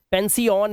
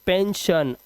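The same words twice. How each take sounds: First: "पेंसियन" said pen-si-yan with a plain s and an extra syllable; "पेंसियन" with s instead of sh, the wrong way; wrong pronunciation. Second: "पेंशन" said pen-shun with a clear sh sound; "पेंशन" with the sh sound and a short shun ending; correct pronunciation. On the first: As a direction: mispronounce "पेंसियन" as pen-see-an on purpose. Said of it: "नहीं करना है इसको". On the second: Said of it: "पेंसियन नहीं करना है इसको". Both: Shown as a demonstration.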